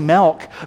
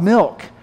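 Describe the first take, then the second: First: The word is said with a Midwestern vowel. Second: The word is said with a standard vowel.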